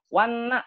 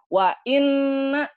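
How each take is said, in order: First: The words run together without a glottal stop. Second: A glottal stop separates the two words. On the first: The meaning no longer becomes 'indeed'. The speaker calls it wrong. "Wanna, betul atau salah tuh? ... Salah" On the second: It means 'and indeed'. The speaker calls it right. "Harusnya kan wa inna"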